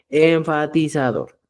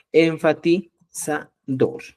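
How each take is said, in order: First: Said in the usual way. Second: "Enfatizador" silabeado muy lento; dictado lento. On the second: Shown as a demonstration. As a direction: alarga "Enfatizador" como al dictar. ("Enfatizador" dicho muy despacio) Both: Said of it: "el enfatizador".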